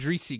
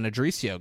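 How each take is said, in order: First: "Adrisi" ending on "see"; corrected name ending. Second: "Adricio" with an extra final "oh"; mistaken name ending. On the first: Correcting who gets home, "Adrisi" ending on see. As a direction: say "Adrisi" without a final "oh". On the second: Retelling who gets home, "Adricio" ending in see-oh. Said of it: "Uh, Adrisi". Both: Real, not acted.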